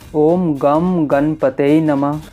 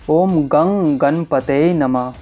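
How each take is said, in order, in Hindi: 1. "ओम" के बाद वाला अक्षर "m" ध्वनि पर खत्म होता है। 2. "ओम" के बाद वाला अक्षर "ng" ध्वनि पर खत्म होता है। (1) "उसमें आपको पूर्णतः फल की प्राप्ति नहीं होती है" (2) "जिस प्रकार हमने उच्चारण किया इसी प्रकार इस मंत्र का वैदिक मार्ग से"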